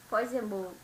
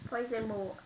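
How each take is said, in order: No difference in how they are said.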